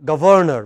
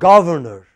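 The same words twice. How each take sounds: First: The stress is on the second syllable. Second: The stress is on the first syllable. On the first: The speaker calls it wrong. "incorrect pronunciation is governor" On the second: The speaker calls it right. "correct pronunciation is governor"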